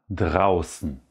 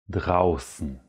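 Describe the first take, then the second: The two takes are said the same way.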